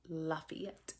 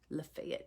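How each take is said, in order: First: It is said the Louisiana way. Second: It is said the local way. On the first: "it's Lafayette in Louisiana" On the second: "It's Lafayette here"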